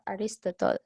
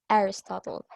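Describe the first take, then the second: First: The stress falls on a later syllable. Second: The stress falls on the first syllable. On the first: The speaker calls it wrong. "it's not Aristotle" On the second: The speaker calls it right. "the stress on his name is on the first syllable"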